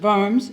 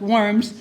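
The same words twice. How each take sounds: First: The name is said with a German pronunciation. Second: The name is said with an American pronunciation. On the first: "the Germans would pronounce it Worms" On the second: "I'm American, so it's Worms"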